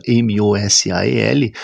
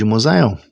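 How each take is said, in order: First: MOSAEL spelled out as M O S A E L, each letter named. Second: Said in the usual way. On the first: Shown as a demonstration. Teacher showing viewers that letters aren't the name, M O S A E L spelled out. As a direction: say M, O, S, A, E, L as separate Portuguese letter names. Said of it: "Pronunciar as letras individualmente". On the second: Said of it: "não é pronunciar o nome de Mosael".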